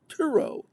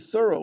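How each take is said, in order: First: Neither syllable is stressed, with a hard T. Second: The stress falls on the first syllable. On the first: This is the proper French way to say it. "with the T H pronounced as a hard T and an accent on neither syllable" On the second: This is how locals in the town say it. "we say thorough like furrow"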